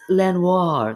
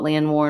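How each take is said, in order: First: It is said with a fancy French-sounding flourish. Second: It is said in a plain English way. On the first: It is something sophisticated and intelligent. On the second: It is just an all-night video game session.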